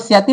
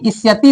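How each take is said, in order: First: The suffix starts directly with the s sound. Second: The suffix starts with an i vowel. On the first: The speaker calls it wrong. "इसको स्यति में नहीं" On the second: The speaker calls it right. "इस्यति इसको बोला जाता है"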